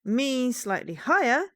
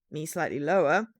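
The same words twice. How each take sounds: First: A little higher, lifting on the last word; your own voice, pitched slightly up. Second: Your own voice in a lower register; a notch down in pitch; slightly lower voice. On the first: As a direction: nudge your own voice up a bit. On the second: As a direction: drop your own voice a little. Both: Shown as a demonstration.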